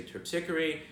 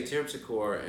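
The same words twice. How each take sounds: First: Terpsichore said as terp-SICK-er-ee; local pronunciation. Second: Terpsichore said as TERP-si-core; spelling pronunciation. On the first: Guide showing what people here say, Terpsichore as terp-SICK-er-ee. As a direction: stress "SICK" in Terpsichore, four syllables. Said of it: "people here would say". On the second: Guide showing what visitors would say, Terpsichore as TERP-si-core. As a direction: end Terpsichore on "core", three syllables. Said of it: "Or you would say". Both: Shown as a demonstration.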